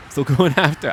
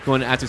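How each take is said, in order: First: "going after" lifted higher with a laugh; "going after" sung out playfully with a chuckle; a goofy little lilt on "going after"; odd sing-song delivery. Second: Said in the usual way. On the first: Pretend. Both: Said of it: "I don't know why I have to say it like that".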